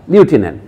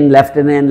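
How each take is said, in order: First: লিউটেন্যান্ট with a clear liu sound at the start, as in lieu; French-style pronunciation. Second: লেফটেন্যান্ট said as lef-TEN-ent, with an F sound after the first vowel; common Bengali way. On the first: Lecturer showing students the French-rooted pronunciation of লিউটেন্যান্ট. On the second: Lecturer showing students the usual Bengali pronunciation of লেফটেন্যান্ট. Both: Shown as a demonstration. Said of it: "ইউটাকে এত করে উচ্চারণ করি আমরা".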